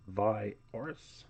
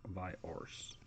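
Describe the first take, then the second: First: Said in the usual way. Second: Viars whispered, much softer; a soft, secretive whisper of Viars. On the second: Shown as a demonstration. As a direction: breathe Viars out in a hushed whisper.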